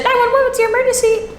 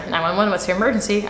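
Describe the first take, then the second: First: Very high, sing-song dispatcher line; mistaken caller voice. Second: Said in the usual way. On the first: Retold or imitated. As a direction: imitate a phone operator way up high. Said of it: "Oh, that's my voice, sorry". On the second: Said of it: "that's my voice, sorry".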